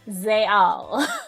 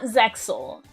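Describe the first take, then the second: First: The X is said as a 'y' sound. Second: The X is said as a 'ks' sound. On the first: The speaker calls it right. "Zayal is pronounced like a Y" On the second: The speaker calls it wrong. "It's it's not Zexal"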